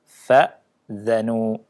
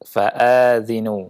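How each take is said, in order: First: Short first syllable, then dh with vowel a. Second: Long a sound, then dh with vowel i. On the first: "Hamzahnya disukun, zalnya di fathah" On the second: "Alifnya dipanjangkan. Kemudian zalnya di kasrah"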